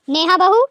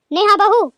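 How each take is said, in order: First: Loud call across the house. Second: Louder, higher impatient second call. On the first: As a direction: call her name from another room. Mother-in-law calling daughter-in-law. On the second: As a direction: call her name again, losing patience. Mother-in-law calls again, louder. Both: Acted.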